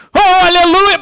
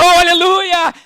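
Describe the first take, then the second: First: High, loud hammed-up hallelujah; big brother's hallelujah. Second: A lightly mock fervent cry, high; fervent hallelujah. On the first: Preacher acting the tall brother shouting praise, loud hammed-up cry. O irmão grandão. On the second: Preacher imitating fiery churchgoers praising, light mock fervent cry. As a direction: imitate an eager believer crying out. Irmãos assim, bem sanguíneos.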